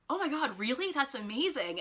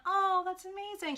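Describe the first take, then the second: First: Higher-pitched genuine amazement; retold, earnest excited reaction; sincerely impressed. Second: Very high, put-on gush; sing-song mock amazement; fake gushing. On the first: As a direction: imitate someone truly thrilled by the news. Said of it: "And not kind of like". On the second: Shown as a demonstration. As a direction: imitate an insincere, over-polite compliment. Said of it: "not kind of like, in a".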